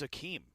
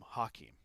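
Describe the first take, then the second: First: The name begins with a vowel sound. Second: The name begins with an h sound. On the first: The speaker calls it right. "It's it's Akeem" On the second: The speaker calls it wrong. "I don't like it when people call him Hakeem"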